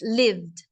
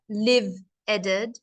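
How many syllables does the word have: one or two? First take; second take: one; two. First: The word is said as one syllable. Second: The word is said as two syllables. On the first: The speaker calls it right. "It's lived" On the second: The speaker calls it wrong. "not live-eded. There's no two sounds"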